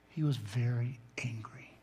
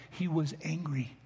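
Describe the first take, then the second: First: Unvoiced whisper, leaning in close. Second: Said in the usual way. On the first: Real, not acted. Pastor to congregation, revealing what the verb means, in a whisper. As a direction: hush it like a secret revealed. Revealing the verb's hidden meaning.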